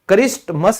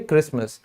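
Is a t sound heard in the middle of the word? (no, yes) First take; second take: yes; no. First: A t sound is pronounced in the middle. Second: No t sound is pronounced in the middle. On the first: The speaker calls it wrong. "क्रिस्टमस नहीं बोलते" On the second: The speaker calls it right. "टी silent होता है इसीलिए क्रिसमस"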